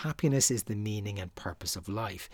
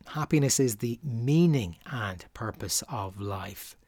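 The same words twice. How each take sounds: First: Weight on the word "Happiness", the rest lighter; stress on happiness. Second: "meaning and purpose" carries the weight, "Happiness" stays light; stress on the second half. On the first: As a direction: lean into "Happiness" at the start. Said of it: "If you place the emphasis on the word happiness". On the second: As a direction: push the stress onto "meaning". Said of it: "the emphasis should in fact be placed on the second half". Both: Shown as a demonstration.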